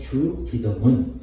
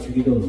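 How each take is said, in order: First: The first syllable is set apart from the rest. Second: The word runs together as one smooth unit. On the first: It is the prayer of the Lord. "이렇게 이제 발음을 해야 맞지만" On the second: It is the familiar name said out of habit. "익숙하게 주기도문 이렇게 익숙하게 되어 있으니까"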